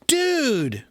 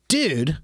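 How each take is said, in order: First: It sounds happy and excited. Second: It sounds upset and annoyed. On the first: I haven't seen you in so long. "that means like I haven't seen you in so long" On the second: You did something that bothered me. "then maybe I'm upset because you did something"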